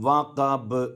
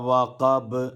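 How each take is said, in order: No difference in how they are said.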